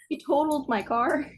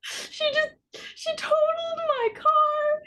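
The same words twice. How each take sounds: First: Higher, rising on the car; emphatic correction. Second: Very high, drawn-out mock wail; mock crying. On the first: Real, not acted. Correcting a friend's fender bender guess, emphatic. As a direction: correct them with raised pitch. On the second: Telling friend about totaled car, mock crying. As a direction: whimper it slowly, hamming up the tears.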